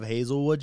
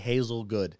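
First: The last part begins with a w sound. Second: The last part begins with a g sound. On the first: The speaker calls it right. "Instead of Hazelwood" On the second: The speaker calls it wrong. "she would say Hazelgood. She couldn't pronounce the W"

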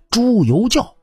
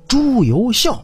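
First: The last syllable is said as jiao. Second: The last syllable is said as xiao. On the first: The speaker calls it right. "应该读成教。朱由校本名应该是朱由教" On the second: The speaker calls it wrong. "肯定也是像主播这么读朱由校"

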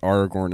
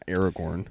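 First: The first syllable has an open 'ah' vowel. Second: The first syllable sounds like 'air', as in 'era'. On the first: The speaker calls it right. "we pronounce it as Aragorn" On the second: The speaker calls it wrong. "and not Aragorn"

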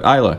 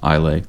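First: The word ends with an 'uh' sound. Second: The word ends with an 'ay' sound. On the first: This is how the name is actually said. The speaker calls it right. "but Isla" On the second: This is how the spelling suggests it is said. The speaker calls it wrong. "it looks like it would be pronounced Islay"

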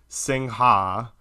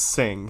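First: The word ends with an audible 'ha' syllable. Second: The word is one syllable with no 'ha'. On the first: The speaker calls it wrong. "I definitely called everywhere pronouncing it Singha. It's not that" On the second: The speaker calls it right. "It is Sing soda water"

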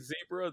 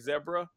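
First: It is said with an American accent. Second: It is said with a British accent.

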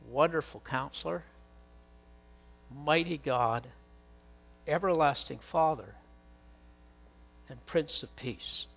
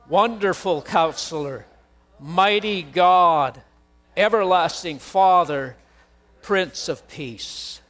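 First: It is said at normal volume. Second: It is said loudly.

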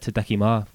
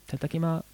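First: It is said in the speaker's plain voice. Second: It is said in a put-on female Japanese voice.

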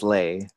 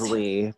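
First: The surname is pronounced the Cantonese way. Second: The surname is pronounced the Mandarin way. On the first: "But then in Cantonese, it's Lei" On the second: "In Mandarin, it is Lee"

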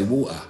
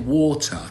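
First: It is said in a South London accent. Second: It is said in a standard, non-local accent.

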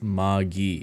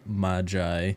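First: The word has a hard G and short I. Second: The word has a soft G and long I. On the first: This is how the show says the name. "It is a hard G and a short I" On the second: This is the traditional way to say the word. "traditionally pronunciation would have it Magi"

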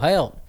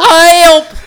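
First: It is said in a plain, normal voice. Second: It is said in a silly Goofy voice.

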